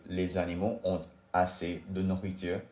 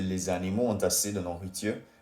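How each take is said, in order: First: The words ont and assez are said separately. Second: The words ont and assez are linked together. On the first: The speaker calls it wrong. "native French speakers wouldn't say" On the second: The speaker calls it right. "do la liaison between ont assez"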